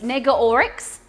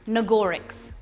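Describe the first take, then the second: First: The name begins with 'Neg', split as Nega Oryx. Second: The name begins with 'Nag', run together as Nagorix. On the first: This is how she says her own name. The speaker calls it right. "other people call it Nega. Nega Oryx" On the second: This is how the group has been saying it. The speaker calls it wrong. "We pronounce it Nagorix"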